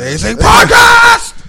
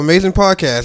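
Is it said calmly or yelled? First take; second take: yelled; calmly. First: It is yelled loudly and excitedly. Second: It is said in a calm, plain voice.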